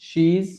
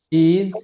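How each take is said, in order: First: The words are joined into one short syllable. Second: Both words are said fully and separately.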